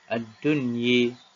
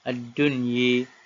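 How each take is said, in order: The two takes are said the same way.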